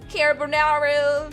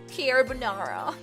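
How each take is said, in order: First: It is said in an American accent. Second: It is said in a strong English accent. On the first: "American accent" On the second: "Why am I saying it with like a really strong English accent?"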